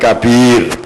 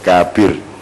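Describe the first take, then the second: First: The second syllable is long, the first short. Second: The first syllable is long, the second short. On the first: "Jadi B-nya yang panjang, K-nya pendek" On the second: "K-nya panjang, B-nya pendek"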